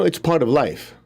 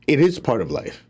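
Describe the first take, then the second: First: Said in the usual way. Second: Is leaned on, falling firmly; stress on IS. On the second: Shown as a demonstration. Teacher agreeing that envy is normal, with stress on is. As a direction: affirm it: it IS part of life.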